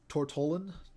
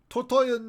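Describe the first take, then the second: First: The middle consonant is sounded as an L. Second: The middle consonant is sounded as a Y.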